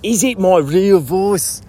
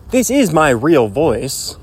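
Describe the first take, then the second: First: Playfully doubtful, put-on voice; questionable put-on voice. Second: Slow, deliberate claim of a real voice; supposedly real voice. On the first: Host questioning his own voice, questionable put-on voice. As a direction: ask it as if the voice were fake. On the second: Pretend. Host teasing listeners about his voice, supposedly real voice. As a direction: state it slowly, at the usual pitch. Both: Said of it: "Which one is the real voice?".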